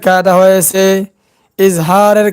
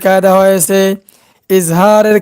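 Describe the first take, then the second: No difference in how they are said.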